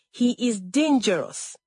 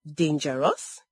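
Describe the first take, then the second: First: "dangerous" pitched high, then falling; emphatic warning. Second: "Dangerous" starting low and rising at the end; doubting echo. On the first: Adaize warning Olama, emphatic fall on "dangerous". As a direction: warn her, leaning on "dangerous" with a falling end. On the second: Olama after laughing at the warning, "Dangerous" rising doubtfully. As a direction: throw "Dangerous" back as a sceptical question. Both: A narrator's reading.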